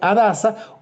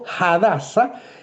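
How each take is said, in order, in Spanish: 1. El nombre empieza sin sonido de H. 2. El nombre empieza con un sonido de H aspirada.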